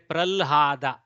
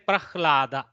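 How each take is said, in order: First: The h sound comes after the l. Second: The h sound comes before the l. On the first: This is the Maharashtra way. "Maharashtra, they will say pralhada" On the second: This is the Karnataka way. "We go ha first, then lakara"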